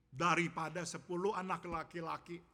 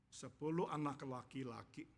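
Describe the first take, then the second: First: "daripada sepuluh anak laki-laki" said firmly, with a push on "daripada"; emphatic contrast. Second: "sepuluh anak laki-laki" held back, after a long pause; subdued contrast. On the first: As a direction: press home "daripada sepuluh anak laki-laki", leaning on the first word. Hannah's view set against Elkanah's. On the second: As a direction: let "sepuluh anak laki-laki" sink, restrained and deliberate. Elkanah's view, subdued by contrast. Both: Shown as a demonstration.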